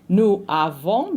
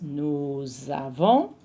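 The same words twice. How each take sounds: First: The s of nous is silent before avons. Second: A z sound links nous into avons. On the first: The speaker calls it wrong. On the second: The speaker calls it right.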